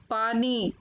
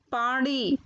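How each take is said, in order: First: Said in the usual way. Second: पानी said "paaṇi", retroflex ण; mispronounced पानी. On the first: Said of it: "फिर उनका शुद्ध उच्चारण". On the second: Shown as a demonstration. Teacher showing children the error, पानी said with ण. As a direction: curl the tongue back for the n of पानी. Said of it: "अशुद्ध शब्द मैंने रखे हैं".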